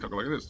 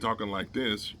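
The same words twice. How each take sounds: First: It is spoken very fast, as if sped up. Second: It is spoken at a normal speed. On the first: "like two times so to speed it up" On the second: "instead of me talking like this"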